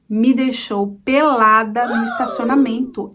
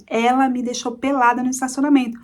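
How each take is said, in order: First: PELADA drawn out and punched; emphatic reveal. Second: Said in the usual way. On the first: Real, not acted. Storyteller revealing she was stripped in public, slow emphatic reveal. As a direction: slowly spell out the shock, weight on "pelada".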